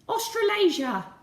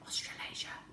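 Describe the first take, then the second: First: It is said in a silly put-on voice. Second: It is whispered very quietly. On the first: "you're going to say it in a silly voice" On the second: "Now I want you to whisper it"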